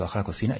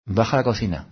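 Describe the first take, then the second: First: Softer, with COCINA rising as a question; questioning echo. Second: Said in the usual way. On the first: Retold or imitated. Puzzled by an inner prompt to go downstairs, questioning echo. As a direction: echo it back doubtfully, lifting the end of "cocina".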